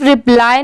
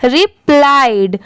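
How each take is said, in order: First: रिप्लाई ending on an open "eye" vowel; final D dropped. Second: रिप्लाइड closed with a clear "d"; teacher's careful रिप्लाइड, ending in ड; final D sounded. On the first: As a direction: leave the "d" off the end of रिप्लाई. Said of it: "इसे सिर्फ रिप्लाई नहीं पढ़ेंगे". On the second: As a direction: land the "d" at the end of रिप्लाइड. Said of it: "last में ड की sound जरूर आएगी". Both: Shown as a demonstration.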